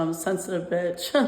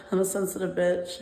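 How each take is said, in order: First: Said in the usual way. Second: Said through a real laugh; chuckling at her own words. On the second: Real, not acted. Calling herself a sensitive bitch, laughing. Admits being emotional, then laughs.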